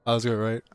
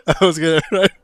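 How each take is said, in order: First: Said in the usual way. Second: Louder, pressing the chat for an answer; loud repeat. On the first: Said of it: "repeats the same question". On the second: Real, not acted. Asking his stream again, now much louder. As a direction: shout the question again. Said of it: "repeats it a third time, louder".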